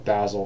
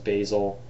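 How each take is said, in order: First: It is said with a British pronunciation. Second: It is said with an American pronunciation.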